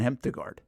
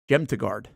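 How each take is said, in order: First: The name begins with an H sound. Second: The name begins with a J sound.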